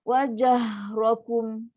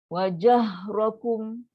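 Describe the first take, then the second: Both takes have the same delivery.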